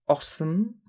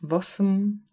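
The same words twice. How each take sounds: First: The word begins directly with a vowel. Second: The word begins with an added v sound.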